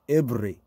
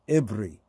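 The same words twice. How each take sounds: The two takes are said the same way.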